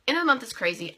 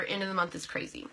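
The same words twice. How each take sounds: First: Louder, stressed restatement; emphatic repeat. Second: Said in the usual way. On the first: Real, not acted. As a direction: say it again with more punch.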